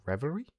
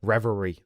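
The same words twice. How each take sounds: First: "Revelry" softer, rising sharply as a question; "Revelry?" quietly queried, higher at the end. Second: Said in the usual way. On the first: Real, not acted. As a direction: doubt the word "Revelry", lifting the end. Doubts the word, maybe drunk.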